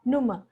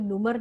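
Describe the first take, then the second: First: The ending is a soft vowel without r. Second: The ending has a clear r sound. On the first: The speaker calls it right. "जब हम इसको तेजी से बोलते तो ये ब्लेंड होके आता है" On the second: The speaker calls it wrong. "हम इसको नुमर नहीं बोलते"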